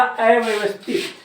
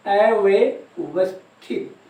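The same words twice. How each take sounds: First: Said in the usual way. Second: अव्यवस्थित drawn out very slowly, in separate pieces; slow dictation. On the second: Shown as a demonstration. Repeats word slowly for note-taking students.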